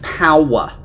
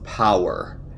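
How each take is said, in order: First: The word is said in a New York accent. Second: The word is said in a plain accent.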